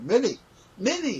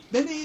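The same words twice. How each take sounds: First: Derek's call, corrected. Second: First try at Derek's call. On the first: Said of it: "he didn't say Minnie, he said". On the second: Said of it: "he didn't say Minnie". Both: Retold or imitated.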